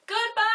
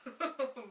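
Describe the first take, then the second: First: Big sung goodbye, high and loud; a cheerful playground shout. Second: Soft little goodbye; gently, almost a secret; quiet goodbye. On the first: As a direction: belt it out for the children. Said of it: "Let's say goodbye as loud as we can". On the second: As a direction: hush it down for the kids. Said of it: "Let's say goodbye as quiet as we can". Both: Shown as a demonstration.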